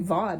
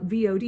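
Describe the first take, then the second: First: It is said as one single word. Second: It is said as three separate letters. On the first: "you don't say V O D" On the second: "you spell out V O D"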